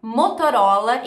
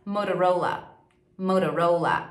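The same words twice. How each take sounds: First: "Motorola" as "moto-RÓ-la", louder; rising Portuguese-style "Motorola"; Brazilian pronunciation. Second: "Motorola" as "mou-ra-ROU-la"; falling American "Motorola"; English pronunciation. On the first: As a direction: clear T in "Motorola". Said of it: "ao invés de você falar". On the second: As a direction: tap the T in "Motorola". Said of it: "em inglês". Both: Shown as a demonstration.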